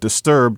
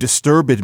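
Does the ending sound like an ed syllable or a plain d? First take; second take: plain d; ed syllable. First: The ending is a plain d sound. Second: The ending is a separate ed syllable. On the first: This is the newer way of saying it. "but disturbed" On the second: This is the older way of saying it. "not you disturbed me"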